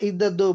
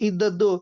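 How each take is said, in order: Both takes have the same delivery.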